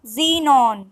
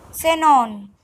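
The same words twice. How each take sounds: First: "xenon" said the English way as zinon; English pronunciation. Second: "Xenon" said Spanish-style as senon; Spanish pronunciation. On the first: Teacher gives the English word, English pronunciation. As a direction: start "xenon" with a z. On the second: Teacher models the Spanish word, Spanish pronunciation. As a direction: start "Xenon" with an s. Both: Shown as a demonstration. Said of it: "X is pronounced as".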